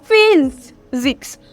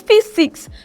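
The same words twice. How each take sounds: First: The middle consonant is a buzzing z sound. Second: The middle consonant is a hissing s sound. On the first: The speaker calls it right. "this S give us the sound physics" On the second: The speaker calls it wrong. "I'm not saying physics"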